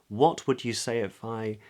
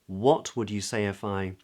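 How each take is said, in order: Both takes have the same delivery.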